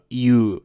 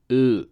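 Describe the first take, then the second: First: U as the English letter, "you"; wrong English U. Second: U as a pure "oo"; Japanese U vowel. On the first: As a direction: say U with a y-glide, "yoo". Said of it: "It's not, uh". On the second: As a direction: say U as "oo", with no y-glide. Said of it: "This is U". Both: Shown as a demonstration.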